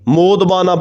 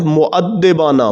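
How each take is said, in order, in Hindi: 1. यह शब्द छोटा होकर तीन अक्षरों का हो जाता है, 'mod-ba-na'। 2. इस शब्द में पाँच अक्षर हैं और d दोहरा है। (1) "मोदबाना पढ़ना ये गलत है" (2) "ये दाल के ऊपर शद है"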